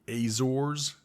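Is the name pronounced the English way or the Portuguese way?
English. The name is pronounced the English way.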